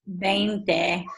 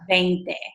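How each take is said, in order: First: The first sound has the lips meeting, B-like. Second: The first sound is a clear, pure V. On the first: "if you actually watch my lips" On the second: "I don't just do"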